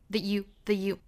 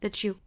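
First: The t is dropped completely before the y. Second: The t merges with the y into a ch-like sound. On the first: "我们可以把这个 t 省掉" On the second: "that 尾部 t 跟后面这个 you 的 ye 连读同化"

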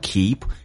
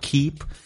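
First: The pitch rises on the word. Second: The pitch stays level on the word. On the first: "你可以用升调 keep" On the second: "也可以用平调 keep"

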